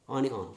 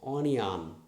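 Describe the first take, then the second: First: The middle has no clear 'y' glide sound. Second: The middle has a clear 'y' glide sound. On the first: The speaker calls it wrong. "Most often we say onion, no" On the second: The speaker calls it right. "It is represented with I"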